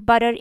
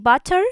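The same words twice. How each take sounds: First: The word is said in an American accent. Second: The word is said in a non-American accent.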